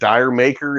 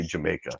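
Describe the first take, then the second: First: It sounds like the two words dire maker. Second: It sounds like the single word Jamaica. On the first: The speaker calls it wrong. "is how they spelled it" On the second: The speaker calls it right. "if you say it the way they're supposed to"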